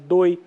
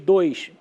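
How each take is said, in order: First: The word ends on the vowel, no s. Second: The word ends with an s sound. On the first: A child still acquiring the language says it this way. "ela vai apagar finalmente, ela vai falar doi" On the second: This is the standard form. "em vez de dois"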